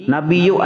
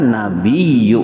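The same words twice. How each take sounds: First: The y sound is short and single. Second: The y sound is held long and doubled. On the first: The speaker calls it wrong. "Iya-nya tuh kada ditasdidkan" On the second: The speaker calls it right. "Padahal nabiyyu"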